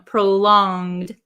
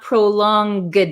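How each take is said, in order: First: It has a nasal sound with no hard G. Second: It has a hard G sound after the nasal. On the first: The speaker calls it right. "it's kind of a nasally sound" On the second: The speaker calls it wrong. "we don't say it as a hard G. It's not prolonged"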